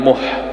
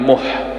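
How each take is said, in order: First: The h is harsh, from deep in the throat. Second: The same.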